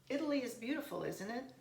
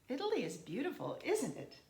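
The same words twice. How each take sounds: First: The voice sounds unsure and seeks confirmation. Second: The voice sounds certain and expects agreement. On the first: The speaker wants the listener to confirm it. "I'm not sure. I want them to confirm for me" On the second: The speaker expects the listener to agree. "I'm just certain that they're going to agree with me"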